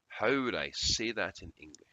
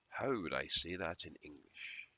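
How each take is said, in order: First: It is said loudly. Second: It is said quietly.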